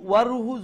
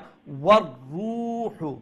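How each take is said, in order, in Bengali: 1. র একবার বলা হয়, ছোট ও হালকাভাবে। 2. র ধরে রেখে চাপ দিয়ে বলা হয়, তাই ডাবল শোনায়। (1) "যদি কইলাই তে একটা রা উচ্চারণর" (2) "এটারে একটু ধাক্কা দিয়া"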